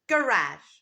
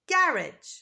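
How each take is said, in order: First: It is said in an American accent. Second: It is said in a British accent. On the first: "in American English, it's a garage" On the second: "In British English, it's a garage"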